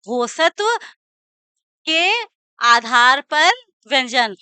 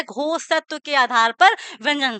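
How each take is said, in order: First: Phrase broken up with long pauses; slow dictation. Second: Said in the usual way. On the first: Shown as a demonstration. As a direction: dictate word by word for note-takers. Teacher dictates phrase piece by piece. (धीरे-धीरे रुक-रुककर लिखवाते हुए)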